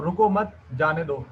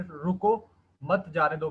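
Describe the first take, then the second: First: रुको मत said together, then a break before जाने दो; group रुको मत, pause, then जाने दो; pause after मत. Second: रुको set apart, then मत जाने दो together; pause after रुको. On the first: (रुको मत के बाद विराम, फिर जाने दो) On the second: (रुको के बाद विराम, मत जाने दो साथ में) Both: Shown as a demonstration. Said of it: "comma को रुको मत के बाद".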